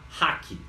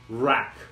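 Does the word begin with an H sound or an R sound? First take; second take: H sound; R sound. First: The word begins with a breathy H sound. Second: The word begins with an English R sound. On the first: The speaker calls it wrong. "aqui no Brasil, a gente se apropriou dessa palavra, a gente fala hack" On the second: The speaker calls it right. "a pronúncia correta... é rack"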